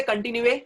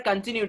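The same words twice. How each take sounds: First: Continue said kon-tin-yoo-AY; continue with an extra "ay" on the end; wrongly voiced final e. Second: Continue said normally as kun-TIN-yoo; continue ending in "yoo", final e silent; silent-e pronunciation. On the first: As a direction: say continue as if its last e were sounded. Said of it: "do we say continue?". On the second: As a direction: say continue with nothing after the "yoo". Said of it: "E is at the end silent". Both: Shown as a demonstration.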